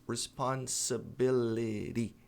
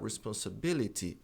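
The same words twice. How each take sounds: First: The T is a soft, quick flap. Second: The T is a clear, crisp T.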